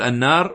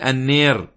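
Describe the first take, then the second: First: The vowel is an open 'aa' sound. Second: The vowel is tilted toward an 'ee' sound. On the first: "بدل ما يقول النار" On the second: "يميلون حرف الألف هنا"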